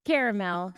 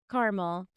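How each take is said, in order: First: "caramel" said as CARE-uh-mel; three-syllable caramel. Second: "caramel" said as CAR-mul; two-syllable caramel. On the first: Baker correcting herself, "caramel" as CARE-uh-mel. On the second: Baker trying one version, "caramel" as CAR-mul. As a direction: say "caramel" without its middle vowel, KAR-muhl. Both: Shown as a demonstration. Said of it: "Do you say caramel or caramel".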